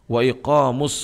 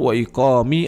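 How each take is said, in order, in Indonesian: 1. Kata iqam diakhiri dengan vokal 'u'. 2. Kata iqam diakhiri dengan vokal 'i'. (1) "dia dibaca marfu" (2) "tidak boleh dibaca majrur wa iqami"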